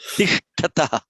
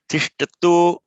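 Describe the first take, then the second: First: The word ends with an 'ah' sound. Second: The word ends with an 'o' sound. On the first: "They two stand" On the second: "that becomes an O"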